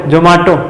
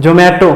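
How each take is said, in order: First: Zomato as "jo-maa-to"; "jo-MAA-to" variant. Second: Zomato as "jo-may-to"; "jo-MAY-to" variant. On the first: Teacher repeats the ad's dispute, Zomato as "jo-maa-to". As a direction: say Zomato with open "aa" in the middle. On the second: Teacher repeats the ad's dispute, Zomato as "jo-may-to". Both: Shown as a demonstration. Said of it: "मारपीट करने लगते हैं, वैसे ही".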